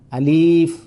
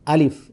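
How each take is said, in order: First: The vowel is drawn out long. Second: The vowel is kept short. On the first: The speaker calls it wrong. "ini sudah populer sekali" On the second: The speaker calls it right. "alif dibaca tidak panjang ya"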